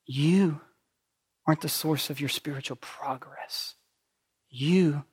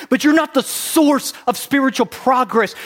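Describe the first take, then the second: First: Hushed, whispered truth. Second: Loud preached point. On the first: Real, not acted. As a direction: whisper it to each one. Quiet pointed repeat. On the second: Acted.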